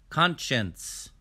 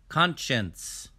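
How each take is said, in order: The two takes are said the same way.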